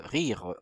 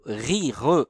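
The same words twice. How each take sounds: First: Said in the usual way. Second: RI and RE as two separate syllables; syllabes séparées. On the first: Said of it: "remettez les, les syllabes ici". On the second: Shown as a demonstration. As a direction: split "rire" clearly into ri, re. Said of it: "remettez les, les syllabes ici dans l'ordre". (« rire » découpé en deux syllabes)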